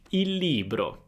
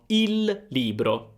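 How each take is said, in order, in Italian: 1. Le parole sono pronunciate unite come un'unica unità. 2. Le parole sono pronunciate lentamente e tenute separate. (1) "possiamo unire queste due parole e formare il libro" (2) "Se sto parlando molto lentamente, se sto cercando di scandire ogni parola"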